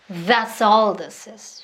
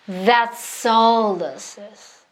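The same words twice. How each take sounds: First: It is spoken a little faster. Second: It is spoken slowly. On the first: "조금씩 빠르게" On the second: "슬로우에서 이걸 연습 많이 하시라는 거예요"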